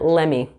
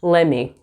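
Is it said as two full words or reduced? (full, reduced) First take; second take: reduced; reduced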